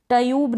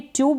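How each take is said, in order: First: ट्यूब with an extra vowel between t and y; full-letter wrong reading. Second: ट्यूब with t running straight into 'yoo'; half-letter pronunciation. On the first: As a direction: say ट्यूब split in two, 'ta-yoob'. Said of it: "नहीं पढ़ रहे हैं इसको". (ट्यूब में पूरे ट का उच्चारण) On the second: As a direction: say ट्यूब as one syllable, 'tyoob'. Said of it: "आधा ट पढ़ा जा रहा है". (ट्यूब में आधे ट का उच्चारण) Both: Shown as a demonstration.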